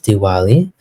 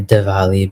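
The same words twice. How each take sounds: First: The middle consonant is a W sound. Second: The middle consonant is a V sound. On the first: This is the Trinidad Bhojpuri form. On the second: This is the Hindi and Sanskrit form. "the V changes to a W, just in the same way"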